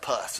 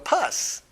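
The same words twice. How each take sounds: First: It is said with a grimace of disgust. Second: It is said lightly, with a smile. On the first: The speaker calls it right. "you have to make a face when you say it" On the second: The speaker calls it wrong. "You can't just smile and go"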